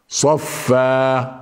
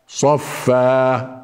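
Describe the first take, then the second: Both takes have the same delivery.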